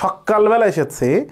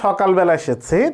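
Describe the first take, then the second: First: The k sound is doubled and held longer. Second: The k sound is short and plain. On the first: It stresses that the arrival was very early. "অনেক সকালে এসেছি এটাকে বেশি গুরুত্ব দেওয়া হয়" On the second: It is a plain statement of arriving in the morning. "তাহলে এটা একটা সাধারণ কথা"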